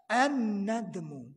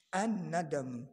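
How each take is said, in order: First: An-nadmu stretched slowly with a long doubled n; slow Arabic term. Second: Said in the usual way. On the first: Shown as a demonstration. Preacher teaching congregation the word an-nadmu, slow and stressed. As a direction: drag out an-nadmu, landing hard on the first syllable. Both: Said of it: "Apa itu an-nadamu?".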